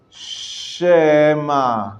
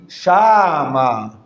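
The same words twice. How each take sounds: First: Shema with a quick half-vowel after the sh; Hebrew minimal vowel. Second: Shama with a full open a after the sh; full vowel. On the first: Teacher showing students the Shema with a faint vowel. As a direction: barely voice the e in Shema, slow. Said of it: "So we say". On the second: Teacher showing students the wrong full-vowel Shama. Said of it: "A full vowel would be". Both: Shown as a demonstration.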